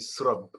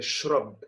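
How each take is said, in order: First: The word begins with an 's' sound. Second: The word begins with a 'sh' sound. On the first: "En Tunisie juive, on dit srab" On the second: "Un musulman tunisien dirait shrab"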